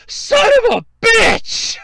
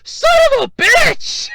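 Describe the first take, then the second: First: Furious at being beaten to it; furious shout. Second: Even higher, louder yell; furious shout. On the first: Shouting at the guy who grabbed the safe, furious. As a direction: yell it out, high and loud. Angry outburst at man taking safe. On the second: Retelling the outburst about the safe, furious shout. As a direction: let it rip at full volume. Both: Retold or imitated.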